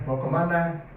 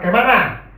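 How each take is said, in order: First: It is said in a soft, gentle Jakarta manner. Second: It is said in a harsh, loud Siantar manner.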